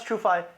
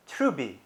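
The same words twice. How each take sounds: First: Said in the usual way. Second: Trubi, a b in place of the f; F turned to B. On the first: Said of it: "how a Chinese person would pronounce". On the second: Shown as a demonstration. Showing how TrueFi would be pronounced, F becomes B in Trubi. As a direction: say Trubi with bee replacing fie. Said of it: "They would pronounce TrueFi".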